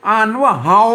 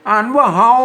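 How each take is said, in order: The two takes are said the same way.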